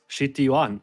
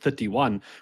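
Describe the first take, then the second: First: It is said in a Japanese accent. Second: It is said in the speaker's plain accent.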